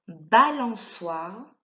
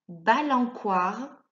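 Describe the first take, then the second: First: The middle consonant is an s sound. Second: The middle consonant is a k sound. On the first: The speaker calls it right. "permet de faire le son S devant le O" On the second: The speaker calls it wrong. "Si tu ne mets pas le C cédille"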